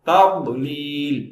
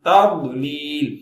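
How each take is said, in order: The two takes are said the same way.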